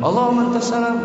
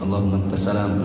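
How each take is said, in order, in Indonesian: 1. Frasa itu diucapkan dengan keras. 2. Frasa itu diucapkan dengan pelan. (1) "Tapi jangan keras-keras juga. Jangan"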